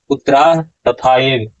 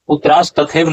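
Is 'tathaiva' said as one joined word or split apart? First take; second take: split; joined. First: No s sound, with tatha and eva split. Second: An s sound is heard, with tathaiva joined. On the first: The speaker calls it right. "यहाँ उच्चारण होगा" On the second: The speaker calls it wrong. "नहीं होगा"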